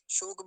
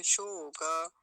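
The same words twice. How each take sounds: First: शोक said short as shok; wrong clipped ending. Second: शोक loud and drawn out as shooo-kaa; full final vowel. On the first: Teacher rejecting the everyday form, clipped ending. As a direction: cut शोक off on the k. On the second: Teacher correcting students, drawn-out full ending. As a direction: hold शोक and release a full ka. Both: Shown as a demonstration. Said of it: "शोक भी नहीं कहेंगे".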